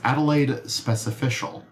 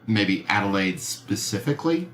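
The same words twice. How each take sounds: First: "specificial" said instead of "specifically"; misread word. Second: "specifically" said properly, tentatively; corrected word. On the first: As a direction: read "Adelaide specificial" with the made-up ending -cial. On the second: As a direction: read "Adelaide specifically" as a hesitant correction. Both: Real, not acted.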